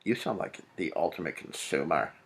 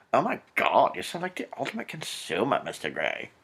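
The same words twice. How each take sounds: First: Said in the usual way. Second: High, hammed-up breathless swoon; mock gushing heroine. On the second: Reader mocking Anastasia's line to Mister Grey, hammed-up gushing. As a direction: swoon over him in a put-on high voice.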